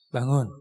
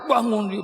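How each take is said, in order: First: It is said softly and slowly. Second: It is said quickly and sharply. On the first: The sleeper's soul has time to return. The speaker calls it right. "pelan-pelan bangunkannya" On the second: The sleeper is startled awake. The speaker calls it wrong. "nggak boleh cepat-cepat"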